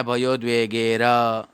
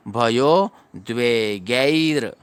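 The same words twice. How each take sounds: First: भयो द्वे गे र with a separate "ra" at the end; wrong full र. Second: भयो द्वे गैर slow, ending "gai-ir" on bare र; correct half र. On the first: Teacher showing the mistake to avoid, र said in full. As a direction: give र its own full vowel after गे. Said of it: "ऐसे नहीं पढ़ना है". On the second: Teacher showing the right reading, slow with a clipped final र. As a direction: stretch गैर and close on र without a vowel. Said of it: "र पूरा नहीं पढ़ना है". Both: Shown as a demonstration.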